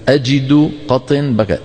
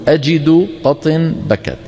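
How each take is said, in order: Both takes have the same delivery.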